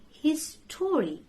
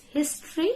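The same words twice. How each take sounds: First: "his story" as two full words, his-TOR-ee; mispronunciation. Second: "history" as HIS-tree; correct pronunciation. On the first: Teacher warns learners, mispronounced "his story" with full O. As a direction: sound the O fully in "his story". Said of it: "So don't say his story". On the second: Teacher corrects learners, "history" said HIS-tree. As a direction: squeeze "history" into two beats. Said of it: "It's history". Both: Shown as a demonstration.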